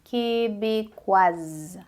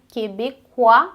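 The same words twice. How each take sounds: First: Québécoise stretched slowly, ending in a clear z; québécoise, linger and voice the z; final s voiced. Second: Québécois ending on the open wa, no s; Québécois with the s left silent, slow; silent final s. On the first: Teacher showing feminine form to students, very slow. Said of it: "a adição do E dá som ao S". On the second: Teacher contrasting masculine form to students, slow. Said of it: "aí a gente não pronuncia o S". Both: Shown as a demonstration.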